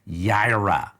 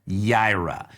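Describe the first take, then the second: First: The word begins with a Y sound. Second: The word begins with a Y sound.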